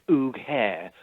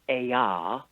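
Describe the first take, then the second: First: The word sounds like 'oog-hair'. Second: The word sounds like 'eye-ar'. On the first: An official office misread the word. The speaker calls it wrong. "they pronounced it Oog Hair, which gave us great merriment" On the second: This is how the group itself says it. The speaker calls it right. "The actual word is Ayar"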